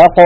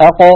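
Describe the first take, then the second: First: أق repeated, its ق released with a light bounce and no vowel; أق ending on a short jolting ق, not open, rounded or front; qalqala demo. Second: أق with the ق released in a small echoing bounce; أق ending on a bouncing qalqala ق; qalqala demo. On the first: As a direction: bounce the ق of أق once more, lips neutral. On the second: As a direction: say أق and let the ق jolt open, no vowel. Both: Shown as a demonstration. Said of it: "ليست هذه القاف مفتوحة".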